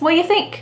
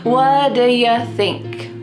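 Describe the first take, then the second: First: The word 'do' is left out entirely. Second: 'Do' shrinks to 'duh' and 'you' to 'ya'. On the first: "Do is just gone" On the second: "instead it sounds like duh"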